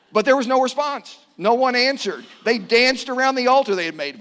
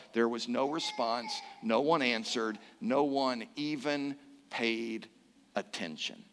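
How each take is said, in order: First: Loud, high scripture declaration; emphatic proclamation. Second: Low, soft, trailing into near silence; hushed, solemn. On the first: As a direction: ring it out to the whole congregation. Preacher proclaims the failed pagan ritual. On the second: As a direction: let each phrase sink into emptiness. Preacher sums up the empty silence. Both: A narrator's reading.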